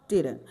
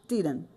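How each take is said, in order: No difference in how they are said.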